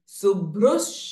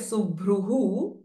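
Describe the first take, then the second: First: The word ends with an 's' sound. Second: The word ends with an echoed 'hu' sound. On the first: The word joins the next word. "if we combine Subhrus Shobhana" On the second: A pause follows the word. "because there we are taking a pause"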